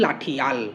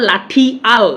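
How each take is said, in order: First: "লাঠি আল" joined as "লাঠিয়াল"; glided pronunciation. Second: "লাঠি আল" as two separate parts; split pronunciation. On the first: Teacher showing the spoken form, joined "লাঠিয়াল". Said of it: "আমরা বলি". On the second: Teacher showing what we don't say, split "লাঠি আল". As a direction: break cleanly before আল in "লাঠি আল". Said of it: "না বলে". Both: Shown as a demonstration.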